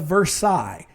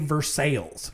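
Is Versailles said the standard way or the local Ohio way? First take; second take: standard; local Ohio. First: It is said with the usual standard pronunciation. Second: It is said with the local Ohio pronunciation.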